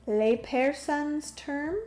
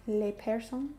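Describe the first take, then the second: First: Said in the usual way. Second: "Lay persons?" in a light, half-joking French accent. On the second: Shown as a demonstration. Streamer reading chat aloud, mock French accent. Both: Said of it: "I don't know why I say that in a French accent".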